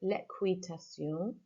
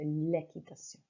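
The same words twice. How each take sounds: First: The qu is said as kw. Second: The qu is said as a plain k. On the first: The speaker calls it wrong. "I mispronounced the word there" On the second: The speaker calls it right. "it sounds more like a key, like a K"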